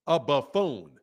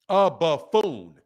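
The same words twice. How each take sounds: First: Said in the usual way. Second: "A buffoon" drawn out slowly, each syllable leaned on; slow emphatic buffoon. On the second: Shown as a demonstration. To the boxer he mocks, slow drawn-out buffoon. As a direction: spell out "buffoon" slowly for effect.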